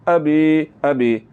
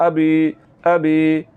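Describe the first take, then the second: Both takes have the same delivery.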